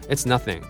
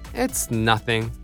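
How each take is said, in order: First: It is said flatly and sounds cold. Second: It is said lightly and sounds warm. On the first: The generosity comes across as distant. The speaker calls it wrong. "普通に言ったらまあ、 ... それぞれなんかちょっと冷たく聞こえちゃう" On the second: It was no trouble at all. The speaker calls it right. "なんでもないよみたいな感じで"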